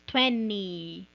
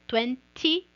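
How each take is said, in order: First: The middle T sound is dropped. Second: The middle T sound is clearly pronounced. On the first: "virar americano e falar como eles... Esquece esse T aí, pula ele" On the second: "você pode falar T"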